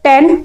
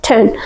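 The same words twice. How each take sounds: First: Said in the usual way. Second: टेन begun with a strong puff of air, "then"; th-like TEN. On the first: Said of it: "टेन नहीं पढ़ना है". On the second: Shown as a demonstration. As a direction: aspirate the t of टेन. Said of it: "था की आवाज निकालनी है". (टेन को "ठेन" जैसा बोलें)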